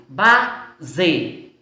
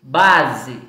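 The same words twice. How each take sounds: First: "base" as ba, pause, ze, final vowel full; two separate beats on "base"; split into syllables. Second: Said in the usual way. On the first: Shown as a demonstration. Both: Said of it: "Nós temos duas sílabas".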